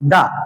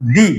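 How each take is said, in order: First: The vowel is a short neutral uh sound. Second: The vowel is a long ee sound. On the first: "তাহলে শব্দটির উচ্চারণ হবে দা। কি উচ্চারণ হবে?" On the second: "তাহলে শব্দটির উচ্চারণ হবে দি। কি উচ্চারণ হবে?"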